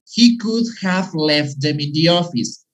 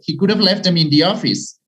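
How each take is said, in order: First: It is said slowly with could have in full. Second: It is said very fast with could have contracted. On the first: The speaker calls it wrong. "we don't say" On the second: The speaker calls it right. "Even faster"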